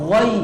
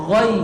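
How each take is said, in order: No difference in how they are said.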